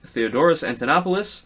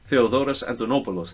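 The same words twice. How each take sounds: First: The name is said with English-style pronunciation. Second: The name is said with native Greek pronunciation. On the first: The speaker calls it wrong. "I anglicized that, sorry" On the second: The speaker calls it right. "I feel better saying it with the correct accent"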